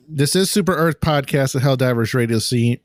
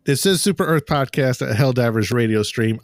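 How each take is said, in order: First: Says "Radio Scene", slipping on "Stream"; "Scene" said in place of "Stream"; Scene instead of Stream. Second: "Radio Stream" clearly with the "str" and "m"; corrected "Stream" said properly; Stream said correctly. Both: Real, not acted. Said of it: "I didn't say it right".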